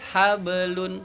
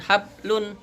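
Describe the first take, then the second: First: The b is released with a bouncing echo. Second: The b is held flat with no bounce. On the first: The speaker calls it right. "tapi ada pantulannya hablun" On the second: The speaker calls it wrong. "bukan hablun"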